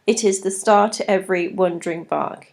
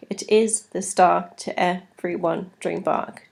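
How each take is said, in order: First: Said in the usual way. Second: "It is the star to every wandering bark" with stress on every second beat, is and star hit; iambic stress. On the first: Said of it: "For example". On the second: Shown as a demonstration. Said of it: "Da-dum, da-dum".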